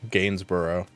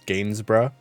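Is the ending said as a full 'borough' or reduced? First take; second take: full; reduced. First: The ending is said fully, like 'borough'. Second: The ending is reduced, not a full 'borough'. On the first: The speaker calls it wrong. "that I would have probably tried to pronounce as Borough" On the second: The speaker calls it right. "But it's Gainsborough"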